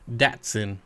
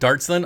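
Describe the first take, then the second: First: The first syllable has no R sound. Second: The first syllable has an R sound. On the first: The speaker calls it right. "It's Dot Datsun" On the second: The speaker calls it wrong. "I've never heard it pronounced Dart ever"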